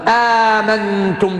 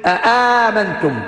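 First: It starts with one glottal stop and a long vowel. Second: It starts with two separate glottal stops. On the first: This is the reading that drops the first hamza. "بهمزة محققة بعدها ألف" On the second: This is the reading with both hamzas pronounced fully. "حققوا الهمزتين الأولى والثانية"

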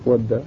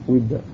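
First: The first vowel is an open 'a'. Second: The first vowel is a front 'i'. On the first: "بفتح" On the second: "وبالكسر"

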